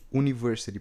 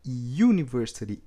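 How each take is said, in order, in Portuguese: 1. Começa com uma vogal 'oo' simples. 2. Começa com som de 'yoo', como um Y. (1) "esse U, ele não está com som de university" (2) "na pronúncia dele no inglês é university"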